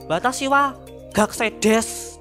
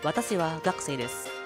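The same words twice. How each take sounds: First: The consonants are heavy, in a thick Javanese accent. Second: The consonants are light, in a Japanese-like accent. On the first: The speaker calls it wrong. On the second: The speaker calls it right.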